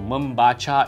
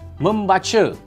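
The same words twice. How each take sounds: First: The final vowel is a clear 'a' sound. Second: The final vowel is an 'e' sound. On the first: This is the formal standard language. "membaca is the right pronunciation" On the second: This is the casual everyday street language. "they change the A into an E. So this is how it sounds"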